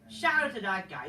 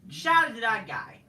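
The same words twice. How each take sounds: First: Said in the usual way. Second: Big loud shout-out to the guy; loud hyped shout-out. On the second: Real, not acted. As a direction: call it out loud like a hype man.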